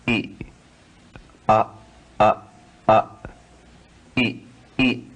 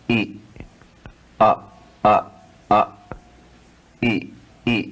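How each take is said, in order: No difference in how they are said.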